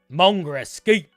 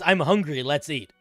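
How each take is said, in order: First: It is said in a heavy, slurred local accent. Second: It is said plainly with every word clear.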